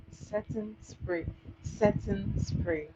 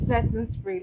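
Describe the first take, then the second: First: Slow, spaced-out "Setting spray"; drawn-out "Setting spray", as if teaching vocabulary; teaching the term. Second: Said in the usual way. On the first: Shown as a demonstration. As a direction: say "Setting spray" very slowly, word by word, for a learner. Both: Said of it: "Learn the term".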